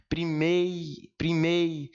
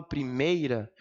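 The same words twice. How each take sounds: First: Drawn-out "primei-" ending on a glide into i; ditongo destacado. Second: Said in the usual way. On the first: Shown as a demonstration. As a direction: stretch the ei of "primei-" in one breath, letting the i finish it. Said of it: "o i já é o final da minha respiração". ("primei-" alongado, com o i no fim do fôlego) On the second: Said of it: "vejam que quando eu falo primeira".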